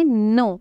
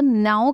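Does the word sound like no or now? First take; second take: no; now. First: The vowel sounds like the one in no. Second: The vowel sounds like the one in now. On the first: The speaker calls it right. "इसको हमने कहना है नो" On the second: The speaker calls it wrong. "आपने इसको नाउ करके pronounce नहीं करना"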